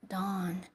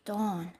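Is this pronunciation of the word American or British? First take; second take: American; British. First: The word is said with an American-style vowel. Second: The word is said with a British-style vowel. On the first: "American dawn" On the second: "Maybe it's British dawn"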